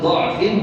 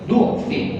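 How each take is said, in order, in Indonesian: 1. Vokal pertama adalah bunyi a terbuka. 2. Vokal pertama adalah bunyi u membulat. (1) "boleh dibaca do" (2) "boleh dibaca du"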